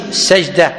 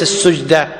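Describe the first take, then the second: First: "السجدة" said as sajda, open a after the s; "السجدة" with a fatha on the s, sajda; correct pronunciation. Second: "السجدة" said as sujda, u after the s; "السجدة" with a damma on the s, sujda; wrong pronunciation. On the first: Teacher corrects the reading: "السجدة" as sajda. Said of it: "بفتح السين". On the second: Teacher shows the wrong reading: "السجدة" as sujda. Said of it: "وليس السجدة". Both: Shown as a demonstration.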